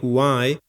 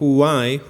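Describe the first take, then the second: First: It begins with a soft breathy h-like sound. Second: The same.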